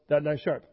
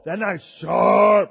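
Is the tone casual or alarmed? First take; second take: casual; alarmed. First: It is said in a calm, casual tone. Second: It is said in an urgent, alarmed tone. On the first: The speaker only knows the knife is sharp. "Bruno will say, hey, you know" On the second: The speaker has been cut by the knife. "there's a conviction in your voice"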